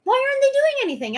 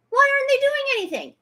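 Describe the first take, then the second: First: High, fast, louder repeat of the yell; real fury, much higher and rushed; outraged yell again. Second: High, fast yell of frustration; real fury, much higher and rushed; outraged yell. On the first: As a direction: shout it once more, fast and high. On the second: Outraged repeated demand. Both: Real, not acted.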